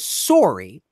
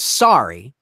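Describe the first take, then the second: First: Sorry is said with a Canadian accent. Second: Sorry is said with an American accent. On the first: "the Canadian version was" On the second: "the American version was"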